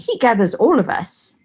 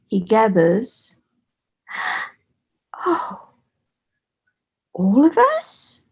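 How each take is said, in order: First: It runs straight on with no pause. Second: There is a breath pause after 'gathers'. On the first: The speaker calls it wrong. "instead of saying" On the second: The speaker calls it right. "you have to pause. You have to take that breath"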